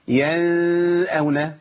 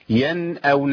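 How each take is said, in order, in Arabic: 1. النون مخفاة في صوت أنفي. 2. تُنطق النون بوضوح وبإيجاز. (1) "ما اقولش ينأون لان كده عملت اخفاء" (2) "بتظهر عندهم ايه؟ النون الساكنه"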